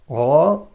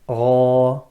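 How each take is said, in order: First: The letter is heavy, with sound rising upward. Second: The same.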